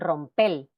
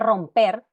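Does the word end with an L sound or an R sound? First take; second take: L; R. First: The word ends with an L sound, Dominican style. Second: The word ends with an R sound.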